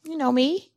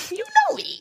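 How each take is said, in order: First: Said in the usual way. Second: Know me jumped way up high in pitch; high teasing falsetto on know me; squeaky high you know me. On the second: Acted. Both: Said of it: "playful repeat".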